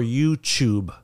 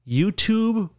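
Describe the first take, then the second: First: The second syllable starts with a ch sound. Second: The second syllable starts with a t sound.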